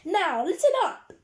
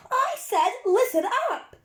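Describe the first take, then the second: First: High, loud call for attention; teacher's shout. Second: Much higher, booming teacher's bellow. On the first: Strict teacher to noisy children on the coach, shouting. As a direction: shout over an excited hum. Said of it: "she shouted over the excited hum". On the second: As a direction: bellow to silence a hyped-up class. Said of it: "bellowed, and there was silence". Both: A narrator's reading.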